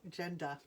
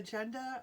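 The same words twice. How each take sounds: First: Said in the usual way. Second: Rhode Island accent. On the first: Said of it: "oh, gender". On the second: Real, not acted. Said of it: "That is such a Rhode Island accent".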